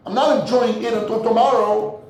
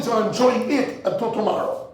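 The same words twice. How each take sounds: First: Firm correction, weight on "not"; stress on not. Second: Said in the usual way. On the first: Shown as a demonstration. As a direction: lean into "not" with a falling tune.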